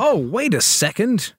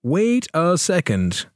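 First: Higher voice rising on "second"; surprised realisation. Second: Higher, drawn-out "wait a second"; slow realisation. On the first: Host suddenly noticing the league table, surprised. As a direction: stop short in surprise, pitched up. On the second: Host checking the league table, slow and deliberate. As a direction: stretch each word as it dawns. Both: Real, not acted.

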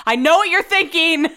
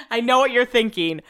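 First: Higher, louder eager pitch; excited pre-emptive defense. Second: Said in the usual way. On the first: Real, not acted. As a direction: jump ahead of their objection.

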